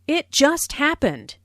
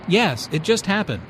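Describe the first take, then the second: First: Just punched high; stress on just. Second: Just punched; stress on just. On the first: Shown as a demonstration. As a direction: hit the word just hard. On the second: Acted. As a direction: lean on the word just. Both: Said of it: "Notice the stress on just".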